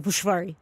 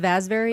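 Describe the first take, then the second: First: The name is said with a Hungarian pronunciation. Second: The name is said with an American pronunciation. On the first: "if you're really saying it right in Hungarian" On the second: "My last name is Vazveri"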